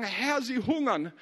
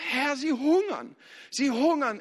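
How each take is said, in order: First: Said in the usual way. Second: Higher, slow plea; pleading to the Lord. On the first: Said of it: "kommen und sagen". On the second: Retold or imitated. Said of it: "gehst und sagst".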